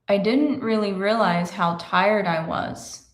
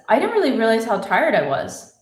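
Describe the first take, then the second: First: The sentence is spoken at a slow pace. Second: The sentence is spoken at a fast pace.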